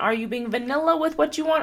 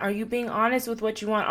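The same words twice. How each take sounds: First: Higher and louder, a teasing lilt on vanilla. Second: Said in the usual way. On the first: Shown as a demonstration. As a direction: poke fun at playing it safe. Mocking the vanilla choice.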